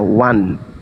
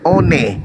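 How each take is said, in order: First: It is said the English way, like wan. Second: It is read as spelled, letter by letter. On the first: This follows the owners' spoken tradition. "harus mengikuti tradisi lisan orang Barat, maka harus membacanya one" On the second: This is the honest reading of the letters. "kalau orang Indonesia ingin jujur harusnya membacanya one"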